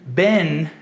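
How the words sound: It is said in an American accent. "é pronunciado assim no inglês americano"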